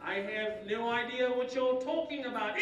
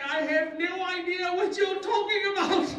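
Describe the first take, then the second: First: Measured British schoolboy, slightly raised pitch; British accent. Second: High, loud British schoolboy; shocked British accent. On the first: New boy repeating it for Jose, restrained British accent. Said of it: "Talk like that again for Jose". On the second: Shocked new boy to Spanish-speaking classmates, loud British accent. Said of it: "I spoke British English". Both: Acted.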